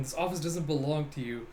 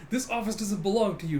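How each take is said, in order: First: Said in the usual way. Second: Raised-pitch mock scolding; indignant retort. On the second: Officers quarrelling over the office, higher indignant retort. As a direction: snap it in the flustered arguer's voice. Mistakenly continued in flustered captain's voice.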